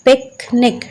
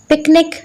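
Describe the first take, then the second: First: "पिकनिक" in two beats, पिक, then निक; split into syllables. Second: Said in the usual way. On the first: Shown as a demonstration. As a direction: pause between the syllables of "पिकनिक". ("पिकनिक" को तोड़कर बोलें: पिक - निक) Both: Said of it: "टू syllables".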